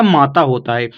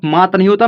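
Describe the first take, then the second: First: माता with a full final aa; correct reading. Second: मात with no final aa; wrong reading. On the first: Teacher correcting the reading for learners, माता ending in long aa. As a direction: sound both long vowels in माता. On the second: Teacher rejecting a misreading to learners, मात cut after t. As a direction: end मात on the t, no vowel after it. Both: Shown as a demonstration.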